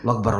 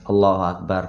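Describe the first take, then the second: First: It is said fast and clipped. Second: It is said slowly and fully.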